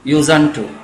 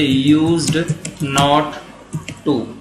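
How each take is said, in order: First: The not is shortened into a short n-t sound. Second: The not is said in full as a word. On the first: This form is used in everyday speech. "बोलने का तरीका" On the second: This form suits formal written work. "Uncontracted"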